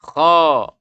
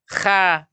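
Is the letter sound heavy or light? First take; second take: heavy; light. First: The sound is heavy, with the tongue back raised. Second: The sound is light, with the tongue lowered. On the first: The speaker calls it right. "pangkal lidahnya terangkat, suara membumbung ke langit-langit sehingga bunyinya menjadi kho" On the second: The speaker calls it wrong. "kalau dibaca kha, arti lidah kita ini turun ke bawah"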